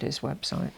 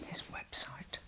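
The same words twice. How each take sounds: First: Said in the usual way. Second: "His website" repeated in a whisper. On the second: Real, not acted. Urging viewers to look at his website, whispered. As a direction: echo "His website" under your breath.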